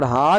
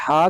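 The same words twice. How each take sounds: First: ہا with a light breath h, as ہ; plain glottal ha. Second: ہا with a tight pharyngeal Arabic ح; throaty ha. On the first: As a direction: say ہا from the bottom of the throat, like English h. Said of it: "اور ہا کے مخرج سے ادا کرنے". (ہا کو ہلکی ہ کی آواز سے ادا کریں) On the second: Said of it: "ہا کے مخرج سے ادا کرنے". (ہا کو حلق کے درمیان سے ح کی طرح ادا کریں) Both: Shown as a demonstration.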